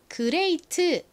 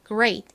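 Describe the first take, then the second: First: The word ends with a full extra 'teu' syllable. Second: The final t is barely heard, with no vowel. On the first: "한국식으로는 그레이트 이렇게 표기를 하고 읽는 경우가 많은데요" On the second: "t 소리가 거의 나지 않고 마치 받침처럼 들립니다"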